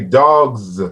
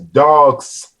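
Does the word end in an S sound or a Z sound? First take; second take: Z sound; S sound. First: The word ends with a voiced z sound. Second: The word ends with a voiceless s sound. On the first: The speaker calls it right. "You say dogs" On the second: The speaker calls it wrong. "you don't pronounce it as dogs"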